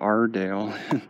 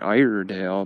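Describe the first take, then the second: First: The name begins with an 'are' sound. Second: The name begins with an 'eye' sound. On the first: This is how the locals say the name. "They call it the Ardale" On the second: This is how the spelling suggests saying the name. "It looks like Iredale because of the way the spelling is"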